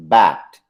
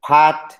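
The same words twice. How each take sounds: First: Bat with a voiced b, lower pitch; minimal pair demo. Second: Pat with a crisp unvoiced p; minimal pair demo. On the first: Teacher contrasting bat with pat for students, voiced b. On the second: Teacher showing students the p in pat, crisp. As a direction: say pat with a clear puff of air. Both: Shown as a demonstration. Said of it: "pat and bat are identical".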